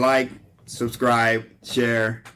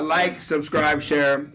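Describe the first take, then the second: First: It is said in his normal accent. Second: It is said in a British accent.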